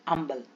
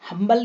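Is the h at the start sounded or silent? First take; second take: silent; sounded. First: The word begins without an h sound. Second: The word begins with a clear h sound. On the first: The speaker calls it right. "इसको क्या पढ़ेंगे हम? अंबल" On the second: The speaker calls it wrong. "हम्बल नहीं पढ़ते"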